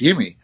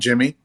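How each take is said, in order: First: The name starts with a Y sound. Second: The name starts with a J sound. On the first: The speaker calls it right. "it's Yimi" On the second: The speaker calls it wrong. "It's not Jimmy"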